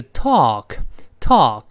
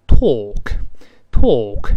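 First: American talk with an open "ah" vowel; American pronunciation. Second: British talk with long rounded pouted vowel; British pronunciation. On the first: Teacher shows the easier variant, American talk with open vowel. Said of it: "在美国呢，都变成了". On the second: Teacher contrasts accents for learners, British talk with pouted vowel. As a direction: say talk British, lips pushed out, drawn out. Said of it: "英式发音呢，读成". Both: Shown as a demonstration.

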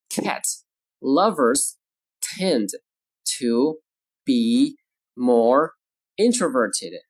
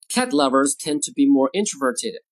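First: Slow, isolated words with clear pauses; word-by-word model. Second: Said in the usual way. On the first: Shown as a demonstration. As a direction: dictate slowly to language learners. Teacher models sentence word by word.

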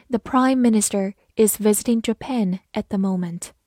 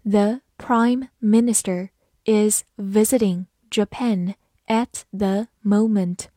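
First: Said in the usual way. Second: Slow, careful dictation reading. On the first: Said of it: "normal take". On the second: Shown as a demonstration. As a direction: read it slowly word by word. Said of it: "跟着我慢读一遍". (慢读)

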